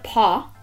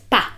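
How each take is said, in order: First: The vowel is rounded, like English 'paw'. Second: The vowel is open and unrounded. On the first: The speaker calls it wrong. "it's not a paw" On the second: The speaker calls it right. "It's pa"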